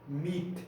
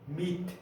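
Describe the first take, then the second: First: The word ends sharply on the t sound. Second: The word ends sharply on the t sound.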